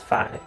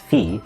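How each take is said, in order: First: The vowel is eye, like fie. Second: The vowel is long ee, like fee. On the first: This is how fraternity members say it. "frat boys pronounce as phi" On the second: This is how mathematicians say it. "we mathematicians pronounce as phi"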